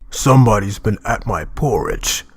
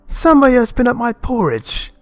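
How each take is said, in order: First: It is said in a deep, gruff voice. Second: It is said in a medium voice.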